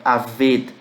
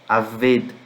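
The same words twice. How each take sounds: No difference in how they are said.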